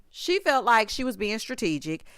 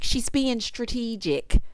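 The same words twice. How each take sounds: First: Said in the usual way. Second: Slow, drawn-out catchphrase imitation; Nene. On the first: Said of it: "Okay, shout out to Nene". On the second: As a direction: lightly mimic a reality star, stretching it out. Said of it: "shout out to Nene".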